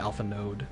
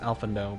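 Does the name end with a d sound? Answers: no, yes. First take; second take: yes; no. First: The name ends with a clear d sound. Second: The name ends without a final d sound. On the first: It is the speaker's own pronunciation. "with a D it would be Alpha Node" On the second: It is the French-style pronunciation. "in a more of a French way"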